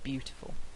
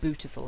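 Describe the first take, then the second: First: A y sound follows the b. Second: The y sound after b is dropped. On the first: "instead of beautiful" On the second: "people saying bootiful"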